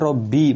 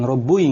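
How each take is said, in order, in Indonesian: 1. Huruf b ganda diikuti vokal i. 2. Huruf b ganda diikuti vokal u. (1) "Sehingga dibaca Robbi" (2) "bukan Robbui, enggak boleh"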